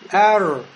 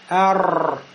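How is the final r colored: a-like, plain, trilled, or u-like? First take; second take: plain; trilled. First: The r is soft with no added vowel. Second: The r is rolled with many vibrations. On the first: The speaker calls it right. "ро, он произносится мягче, с сукуном, и при этом нельзя шевелить губами" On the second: The speaker calls it wrong. "А если будет много колебаний"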